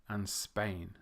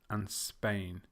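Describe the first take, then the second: Both takes have the same delivery.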